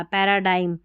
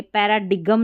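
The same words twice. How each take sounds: First: पैराडाइम with a silent G; correct pronunciation. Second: पैराडिगम with the G sounded; wrong pronunciation. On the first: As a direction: say पैराडाइम, ending in "dime". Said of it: "जी silent है". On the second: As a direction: say पैराडिगम, ending in "digum". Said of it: "ये पैराडिगम नहीं पढ़ा". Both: Shown as a demonstration.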